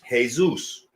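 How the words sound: The name starts with an H sound. This is how Latin speakers say it. "Latin speaking people pronounce it this way"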